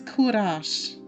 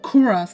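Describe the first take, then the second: First: The name ends with a 'sh' sound. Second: The name does not end with a 'sh' sound. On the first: The speaker calls it right. "it's pronounced Kurash because it's the last part rhymes with mush" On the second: The speaker calls it wrong. "his name is not Kuras, like I used to say it"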